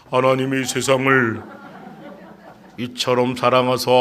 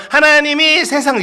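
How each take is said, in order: First: Put-on low, level teenage recitation; lowered adolescent voice. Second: Put-on high, childlike reciting; younger boy's recitation. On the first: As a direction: recite like a boy putting on a deep voice. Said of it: "목소리 깔게 되죠". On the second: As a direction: recite loudly and high, like a boy before puberty. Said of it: "일월 달만 해도".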